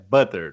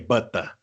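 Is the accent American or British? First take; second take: American; British. First: It is said in an American accent. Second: It is said in a British accent. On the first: "manteiga em americano é butter" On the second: "Aqui é butter"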